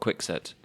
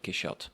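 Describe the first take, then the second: First: The middle consonant is a ks sound. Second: The middle consonant is a sh sound. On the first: "English people saying Don Quixote because we say quixotic" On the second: "French pronounce it Quixote with um, the C H"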